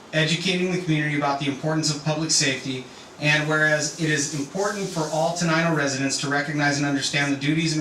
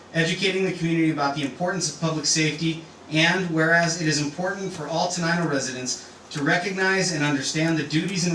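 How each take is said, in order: Both takes have the same delivery.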